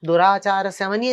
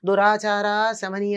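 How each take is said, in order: First: The two words run together without a pause. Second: A pause separates the two words. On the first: The goddess removes wicked conduct. The speaker calls it right. "కలిపి చదవాలి" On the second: The goddess herself is of wicked conduct. The speaker calls it wrong. "అని చదవకూడదు"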